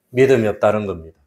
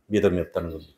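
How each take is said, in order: First: Said in the usual way. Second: 믿음이 없다는 겁니다 repeated lower and much softer; a hushed echo of the line. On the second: Acted. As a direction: let the repeat fall away quietly. Repeated key sentence in sermon.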